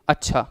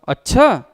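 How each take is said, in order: First: It sounds like agreeing and accepting. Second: It sounds like objecting and resisting.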